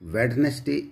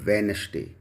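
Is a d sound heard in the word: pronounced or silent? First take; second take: pronounced; silent. First: A d sound is pronounced in the first syllable. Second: No d sound is pronounced in the first syllable. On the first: The speaker calls it wrong. "इसका pronunciation किया जाता है जो कि गलत है" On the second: The speaker calls it right. "तो इसको हम वेनसडे"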